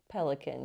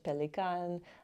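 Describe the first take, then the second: First: It is said with an American English pronunciation. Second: It is said with a German pronunciation. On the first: "you can say in America" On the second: "German is"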